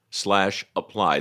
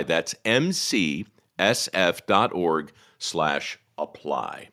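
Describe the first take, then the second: First: Quick web address. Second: Each letter slowly and clearly; slow spelled-out address. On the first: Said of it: "repeats web address". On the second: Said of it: "repeats web address slowly". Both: Shown as a demonstration.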